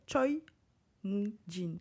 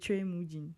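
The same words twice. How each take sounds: First: The name is read with French spelling sounds. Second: The name is read with its Korean pronunciation. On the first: The speaker calls it wrong. "en français, on dirait" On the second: The speaker calls it right. "en réalité, c'est"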